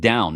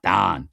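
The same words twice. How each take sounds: First: The vowel is the standard 'ow' sound. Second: The vowel is a flat Pittsburgh 'ah' sound. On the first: "Notice I said down" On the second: "not down. So I didn't drop the yinzer there"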